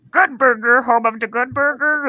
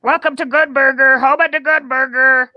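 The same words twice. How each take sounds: First: Tentative, higher attempt at the Good Burger greeter. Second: High, loud fast-food greeter; Good Burger voice. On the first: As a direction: feel out the character voice, pitched up. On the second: Acted. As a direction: belt out the greeting in a raised character voice. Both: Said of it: "can I hear your Good Burger voice?".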